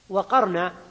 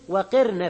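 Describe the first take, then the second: First: The q sound is followed by an 'a' vowel. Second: The q sound is followed by an 'i' vowel. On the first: This is the reading of Nafi and Asim. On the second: This is the reading of the other Seven readers.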